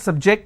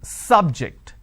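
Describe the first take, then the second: First: The stress is on the second syllable. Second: The stress is on the first syllable. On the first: It is a verb, meaning to expose someone. "my stress has moved to the second syllable" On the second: It is a noun, a topic of study. "I'm stressing on the first syllable"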